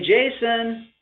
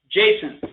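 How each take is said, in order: First: The name is said smoothly and warmly. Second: The name is said sharply and flatly. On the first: The caller is delighted to see the listener. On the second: The caller is upset with the listener.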